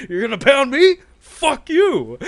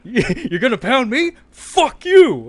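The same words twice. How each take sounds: First: High, loud mock shout from behind camera; director's voice from behind the camera, high and loud; mock outraged yell. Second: High, loud, laughing mock yell; mock outraged yell. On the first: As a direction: scream it back in disbelief. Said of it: "you just hear this voice". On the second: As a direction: shriek it back through laughter. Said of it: "He says".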